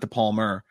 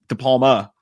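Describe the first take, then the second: First: The name ends in an 'er' sound. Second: The name ends in an open 'ah' sound. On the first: The speaker calls it wrong. "not De Palmer" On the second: The speaker calls it right. "De Palma, not De Palmer"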